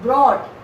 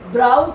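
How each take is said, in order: First: The vowel sounds like 'aw' in 'caught'. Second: The vowel sounds like 'ow' in 'out'. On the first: The speaker calls it right. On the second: The speaker calls it wrong. "ब्राउट नहीं बोलना है"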